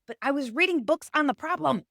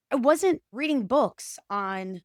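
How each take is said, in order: First: "reading" leaned on with a falling tune; weight on "reading", then let it drop; stress on reading. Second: Slow, "wasn't" pressed hard; stress on wasn't. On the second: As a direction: drag it out, hit "wasn't". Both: Shown as a demonstration.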